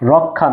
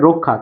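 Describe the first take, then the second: First: The first vowel is an open 'aw' sound. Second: The first vowel is a closed 'o' sound. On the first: The speaker calls it wrong. "রক্ষা না" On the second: The speaker calls it right. "উচ্চারণটা হবে রক্ষা"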